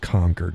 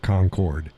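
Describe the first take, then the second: First: It uses the local New Hampshire pronunciation. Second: It uses a pronunciation from outside New Hampshire. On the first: It names the New Hampshire state capital. The speaker calls it right. "It's Concord" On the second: It names the other town south of New Hampshire. The speaker calls it wrong. "not Concord"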